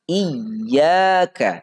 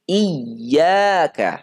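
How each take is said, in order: Both takes have the same delivery.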